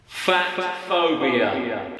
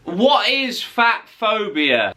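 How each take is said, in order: First: Much lower, slow and softer, weighty; deep slow dramatic answer. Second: Said in the usual way. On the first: Shown as a demonstration. Answering his own question in a deep dramatic voice. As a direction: drop the voice low and drag it out like a documentary.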